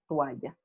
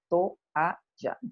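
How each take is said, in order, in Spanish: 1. Se dice en dos sílabas. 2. Se dice en tres sílabas. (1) "nosotros diptongamos" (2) "hay un hiato ahí, toalla, tres sílabas"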